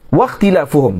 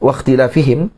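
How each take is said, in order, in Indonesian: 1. Suku kata terakhir memakai vokal u: fuhum. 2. Suku kata terakhir memakai vokal i: fihim. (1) "Ikhtilafuhum ni ataf kepada kasrah" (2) "jangan baca ... waqtilafihim"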